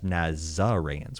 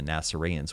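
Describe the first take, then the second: First: The middle consonant is a hard Z sound. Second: The middle consonant is a soft S sound. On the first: It reflects a later Greek pronunciation. "with a with a Z" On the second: It points to an older Aramaic pronunciation. "with an S sound"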